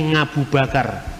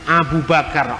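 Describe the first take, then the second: First: It starts with an ng sound. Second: It starts with the Arabic Ain sound. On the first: "Orang Jawa tidak bisa ngomong huruf Ain" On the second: "huruf Ain"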